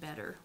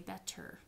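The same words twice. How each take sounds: First: The middle consonant is a quick tap. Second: The middle consonant is a clear T. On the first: The speaker calls it right. "you tap on better" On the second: The speaker calls it wrong. "We usually don't say better"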